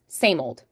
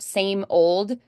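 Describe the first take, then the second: First: The words run together like one word. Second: The two words are said separately.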